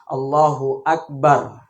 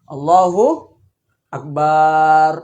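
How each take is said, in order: First: The final syllable 'bar' is kept short. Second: The final syllable 'bar' is drawn out long. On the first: The speaker calls it right. "cara membaca takbiratul ihram yang benar" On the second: The speaker calls it wrong. "itu barnya barnya pan panjang"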